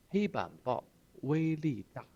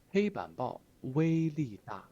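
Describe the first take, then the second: First: 黑板报威力大 raised like a cadre; pompous party-speak; official tone. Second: 黑板报威力大 raised and loud like a cadre; pompous official pronouncement. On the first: Teacher repeats cadre's boast, in official tone. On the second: Teacher voices retired cadre bragging, in official tone. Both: Retold or imitated. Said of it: "官腔".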